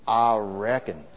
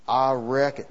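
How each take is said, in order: First: Slow, low Southern "I reckon"; southern accent. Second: Said in the usual way. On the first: Shown as a demonstration. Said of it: "you gotta get the southern accent". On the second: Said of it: "No, you gotta get the southern accent".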